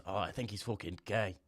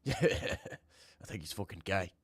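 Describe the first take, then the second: First: Said in the usual way. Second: Drawn out through a laugh; slow laughing repeat. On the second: Shown as a demonstration. Streamer laughs rereading a viewer's message, slow and amused. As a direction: laugh while slowly saying it again.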